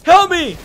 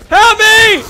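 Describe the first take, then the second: First: High, loud cry for help; panicked cry. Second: Very high, full-volume scream for help; screamed plea. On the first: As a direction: call for rescue in mock panic. Being eaten in game. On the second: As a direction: scream for rescue at the top of your voice. Repeats plea, escalating to scream. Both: Pretend.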